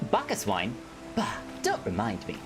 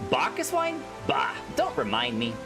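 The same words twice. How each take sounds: First: It is read in a changed, different character voice. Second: It is read in the speaker's usual character voice. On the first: The speaker calls it right. "I gotta do a different voice" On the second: The speaker calls it wrong. "I do a lot of um, Lalafell with the same voice"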